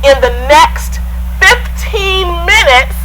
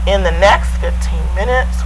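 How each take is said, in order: First: The pitch and loudness rise and fall. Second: The pitch stays flat on one tone. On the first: The speaker calls it right. "you heard the variety in my voice" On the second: The speaker calls it wrong. "that's all in one tone"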